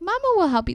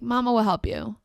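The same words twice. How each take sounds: First: The voice is pitched higher. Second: The voice is pitched lower.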